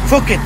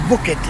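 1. تبدأ الكلمة بصوت f. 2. تبدأ الكلمة بصوت b. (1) "النطق الصحيح لها فوكت" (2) "وليست بوكت"

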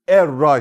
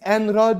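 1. n atılır, r'ye şedde verilir. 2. Tek r'den önce n okunur. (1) "Nunu, yani neyi ortadan kaldır. Şedde de veriyoruz. Erra şeklinde okuyoruz" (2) "Buna biz enra diyorduk ya"

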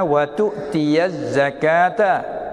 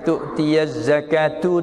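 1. Kata terakhir berakhir dengan vokal 'a'. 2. Kata terakhir berakhir dengan vokal 'u'. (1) "Karena maf'ul" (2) "Tu'tiyaz zakatu tu silap"

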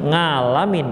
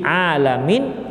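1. Kata ini diawali dengan bunyi ng. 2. Kata ini diawali dengan bunyi ain dari tenggorokan. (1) "ain yang terucap dengan dia nga" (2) "ajarkan ain"

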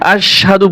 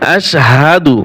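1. h ধ্বনিটি বাদ যায়, শুনতে shadu-র মতো লাগে। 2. sh-এর পরের h ধ্বনিটি স্পষ্ট উচ্চারিত হয়।

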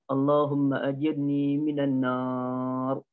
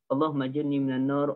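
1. Frasa ini dibaca dengan tenang dan tidak tergesa-gesa. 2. Frasa ini dibaca dengan cepat dan tergesa-gesa. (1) "dengan tenang ... tidak tergesa-gesa" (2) "Bukannya ... dengan bentuk laju"

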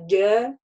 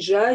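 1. Это короткий резкий звук дж. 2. Это долгий жужжащий звук ж. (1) "а дя, ди, дю" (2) "Не жа, жи, жу"

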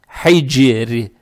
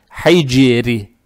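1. Слово заканчивается на мягкий звук 'ri'. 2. Слово заканчивается на мягкий звук 'ri'.

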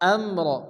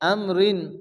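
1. শব্দটি খালি 'r' ধ্বনিতে শেষ হয়। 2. শব্দটি স্বরধ্বনির পরে 'n' দিয়ে শেষ হয়।

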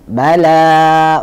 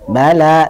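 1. Vokal setelah huruf l ditarik panjang. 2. Vokal setelah huruf l ditahan sebentar. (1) "itu salah karena terlalu kepanjangan" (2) "lamnya cuma dua harokat saja"

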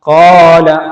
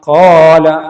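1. സ്വരം രണ്ട് എണ്ണം നേരം പിടിക്കുന്നു. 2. സ്വരം രണ്ട് എണ്ണം നേരം പിടിക്കുന്നു.

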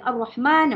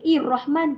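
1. Kata ini diawali dengan vokal a. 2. Kata ini diawali dengan vokal i. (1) "mulakan bacaan dengan baris atas" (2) "Ustazah tak baca Ir-Rahman"

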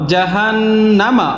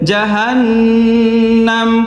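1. শব্দটি শেষ স্বরধ্বনি দিয়ে শেষ হয়। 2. শব্দটি খালি ব্যঞ্জনে শেষ হয়।

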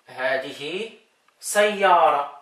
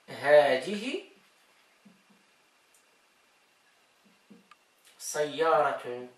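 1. Das letzte Wort endet auf ein einfaches 'a'. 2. Das letzte Wort endet mit einem 't'-Laut. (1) "wenn hier nichts drauf ist, dann einfach" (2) "wenn hier was drauf"

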